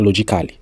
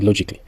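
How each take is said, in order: First: An extra vowel is heard before the -ly. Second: No extra vowel is heard before the -ly. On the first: The speaker calls it wrong. "on ne dit pas logically" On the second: The speaker calls it right. "on dit logically"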